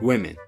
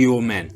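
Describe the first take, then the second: First: The first part is said as a normal word. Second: The first part is said as a letter name. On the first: The speaker calls it right. "دەبڵم چی و women women" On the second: The speaker calls it wrong. "بەس خۆ من ناڵێم W men"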